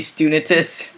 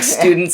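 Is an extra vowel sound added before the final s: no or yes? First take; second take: yes; no. First: An extra vowel is inserted before the final s. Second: The word ends in a plain ts sound. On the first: "whenever it's a T S, he pronounces it a T I S" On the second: "if it's like students"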